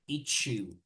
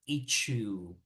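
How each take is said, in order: No difference in how they are said.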